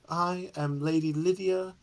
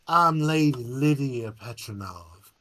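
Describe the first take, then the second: First: It is said in a non-Southern accent. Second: It is said in an old Southern accent.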